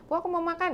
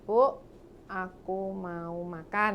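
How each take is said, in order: First: It is said quickly, words running together. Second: It is said slowly and clearly, word by word.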